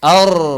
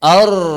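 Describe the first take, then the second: No difference in how they are said.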